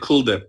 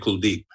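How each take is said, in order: First: The stress is on the first syllable. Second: The stress is on the second syllable. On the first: "very Americanized" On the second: "they put more emphasis on the second half of the name"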